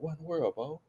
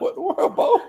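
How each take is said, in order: First: It sounds worried and concerned. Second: It sounds admiring and teasing.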